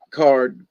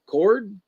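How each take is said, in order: First: Said in the usual way. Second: "cord" with an OR vowel, pitched higher; questioned slip. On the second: Shown as a demonstration. Echoes own slip against the right word.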